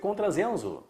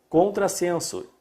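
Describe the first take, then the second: First: The middle consonant sounds like z. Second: The middle consonant sounds like s. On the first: "um S só seria contrasenso" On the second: "Está o S S entre vogais"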